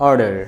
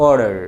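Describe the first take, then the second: No difference in how they are said.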